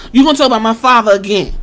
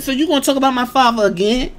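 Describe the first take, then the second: First: Same line pushed harder and faster; pressing the question a second time, louder and quicker; louder repeat. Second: Said in the usual way. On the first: Retold or imitated. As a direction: lean in on the second ask. [name] repeats the retort louder.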